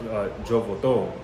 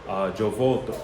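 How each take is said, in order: No difference in how they are said.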